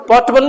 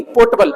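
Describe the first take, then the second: First: "पोर्टेबल" as two-beat "port-bal"; portable, the wrong word. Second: "पोर्टेबल" without R, "po-ta-bal"; potable, R silent. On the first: Teacher contrasts two words for students, this "पोर्टेबल" as "port-bal". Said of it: "पोर्टेबल नहीं". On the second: Teacher corrects to the drinking-water word, "पोर्टेबल" as R-less "po-ta-bal". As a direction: say "पोर्टेबल" with long "po" and no R. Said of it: "ये आर silent रहेगी". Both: Shown as a demonstration.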